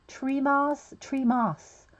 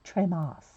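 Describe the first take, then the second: First: Said in the usual way. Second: Tremos with a light French accent, treh-MAH; lightly French Tremos, lower; mock French accent. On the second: Shown as a demonstration. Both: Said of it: "We have to put a French accent to that".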